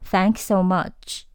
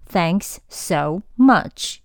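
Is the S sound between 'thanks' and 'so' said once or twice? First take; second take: once; twice. First: The S sound is pronounced only once, linked. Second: The S sound is pronounced twice, separately. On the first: The speaker calls it right. "读一个音就好，不需要两次" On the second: The speaker calls it wrong. "不要读thanks so much，你又不是机器人"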